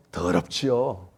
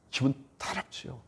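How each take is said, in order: First: 더럽지요 said low and falling in Gyeongsang dialect. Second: Said in the usual way. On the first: Shown as a demonstration. Preacher showing the word in Gyeongsang dialect, low and falling. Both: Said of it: "경상말로".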